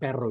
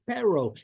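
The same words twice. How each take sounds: First: It is said with a Spanish accent. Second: It is said with an English accent. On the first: "Instead of perro" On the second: "you say it with an English accent"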